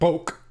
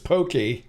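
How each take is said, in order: First: The word is said with one syllable. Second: The word is said with two syllables. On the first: The speaker calls it wrong. "not poke" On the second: The speaker calls it right. "It's pokey"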